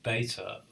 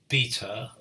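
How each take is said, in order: First: It is said in an American accent. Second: It is said in a British accent.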